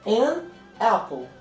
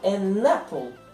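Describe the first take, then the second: First: The two words are said separately. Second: The two words run together quickly.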